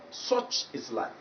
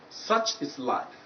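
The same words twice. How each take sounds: First: The vowel is a different vowel sound. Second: The vowel is the target vowel sound. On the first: The speaker calls it wrong. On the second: The speaker calls it right.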